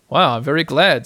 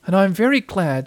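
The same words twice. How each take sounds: First: Mildly pleased, louder exclamation; happy. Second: Higher, small pleased voice; happy Piglet. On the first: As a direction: glad Pooh, in the reader's middle register. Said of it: "said Pooh happily". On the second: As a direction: chime in happily, pitched up. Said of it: "said Piglet happily". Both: A narrator's reading.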